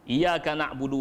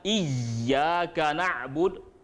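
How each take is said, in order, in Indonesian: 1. Bunyi y yang double dihilangkan sama sekali. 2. Bunyi y yang double ditekan sangat kuat. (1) "Kalau dihilangkan tasdid dia, ... macam tu je" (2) "kalau ditasdid dikuat sangat"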